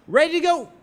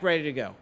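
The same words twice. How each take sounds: First: Chanted, high, loud call to the room; chanting voice. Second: Said in the usual way. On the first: Retold or imitated. Woman rousing the room, high loud chant. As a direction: toss out the chant for an answer. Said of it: "she lets it out again". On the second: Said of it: "Everyone yells back".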